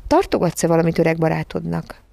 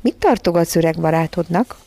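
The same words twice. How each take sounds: First: "tartogatsz-e valamit" articulated distinctly; "tartogatsz-e valamit öreg barátodnak" repeated intelligibly; more clearly. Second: Mildly honeyed, lilting question; a touch of flattery; sweet, wheedling. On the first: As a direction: ask "öreg barátodnak" carefully, word by word. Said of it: "ismételte érthetőbben". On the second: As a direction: coax a treat from a baby. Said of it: "kezdte legédesebb, leghízelgőbb hangján". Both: A narrator's reading.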